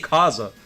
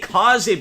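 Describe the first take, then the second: First: The name ends in an 'ah' vowel. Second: The name ends in an 'ay' vowel. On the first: "that's not the way, the right way to pronounce it" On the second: "Who the fuck is gonna say Kaze"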